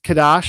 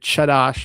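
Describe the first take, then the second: First: The word begins with a hard K sound. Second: The word begins with a soft, breathy sound. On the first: "I'm going to say a, a hard K here" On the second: "Instead of Chadash or Hadash"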